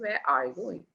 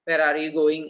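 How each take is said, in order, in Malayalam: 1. ചോദ്യത്തിലുടനീളം pitch ഉയർന്നും താഴ്ന്നും നീങ്ങുന്നു. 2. ചോദ്യത്തിലുടനീളം pitch ഒരേ നിലയിൽ തന്നെ നിൽക്കുന്നു. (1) "ആ ടോൺ മാറി ഏറി കുറഞ്ഞ്" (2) "ഇന്ത്യൻ ഇംഗ്ലീഷ് പറയുമ്പോൾ നോർമൽ ടോൺ ആയിരിക്കും"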